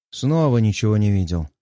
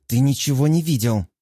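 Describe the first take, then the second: First: Lower, easygoing teasing concession; smiling agreement. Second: Mildly flustered quick denial; blurted out. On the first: Husband playing along with flustered Светка, lower and smiling. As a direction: give in with a light smile. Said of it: "с улыбкой киваю". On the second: Светка caught with her novel, mildly blurting a denial. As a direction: blurt it with a touch of embarrassment. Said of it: "выпалила она". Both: A narrator's reading.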